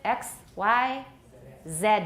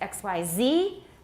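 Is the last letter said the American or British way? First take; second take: British; American. First: The letters are said the British English way. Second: The letters are said the American English way. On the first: "in British English" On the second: "in American English"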